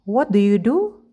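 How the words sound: The voice rises at the end. The speaker calls it wrong. "Kita tidak mengatakan ... intonasinya bukan naik"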